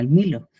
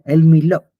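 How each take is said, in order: First: The stress is on the first syllable. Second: The stress is on the last syllable. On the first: It names a chocolate drink. "una bebida chocolatada que se llama el Milo" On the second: It names a place in Jerusalem. "con el- la tilde en la O"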